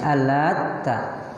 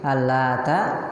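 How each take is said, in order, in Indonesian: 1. Bunyi t ganda dan ditahan lebih lama. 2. Bunyi t pendek dan tunggal. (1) "kedua di tasydid" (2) "pertama ta-nya diringankan tanpa tasydid"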